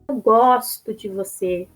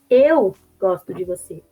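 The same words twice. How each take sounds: First: The stress is on the word gosto. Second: The stress is on the word eu.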